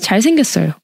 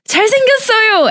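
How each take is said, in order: First: The pitch falls flatly at the end. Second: It is said with strong, excited emphasis. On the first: He is just good looking, as a fact. "And the full stop would be" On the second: He is so good looking. "Exclamation mark"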